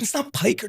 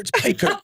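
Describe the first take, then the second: First: Put-on "piker" said with a thick Brooklyn accent, raised pitch; imitating Brooklyn accent. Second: "piker" said again as the Brooklyn brokers say it, high pitched; Brooklyn-accented correction. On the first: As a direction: mimic the Brooklyn brokers saying "piker". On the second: Retold or imitated. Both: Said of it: "They're like".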